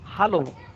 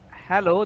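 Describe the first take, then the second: First: It has the German 'hah-lo' vowel sounds. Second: It has the English 'heh-low' vowel sounds. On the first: The speaker calls it right. "This is hello. H A L L O" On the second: The speaker calls it wrong. "this is not hello"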